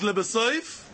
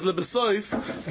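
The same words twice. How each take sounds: First: "Lebesoif" lifted at the end, rising like an open question; brisk "Lebesoif" with an upward finish; Ritva's reading. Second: "Lebesoif" drawn out very slowly with a falling close; slow, settled "Lebesoif", as if stating the Rashba's meaning; Rashba's reading. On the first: Teacher contrasts the Ritva's reading of "Lebesoif", rising at the end. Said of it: "The Ritva says". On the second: Teacher gives the Rashba's reading of "Lebesoif", slow and falling. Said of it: "the Rashba says". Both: Shown as a demonstration.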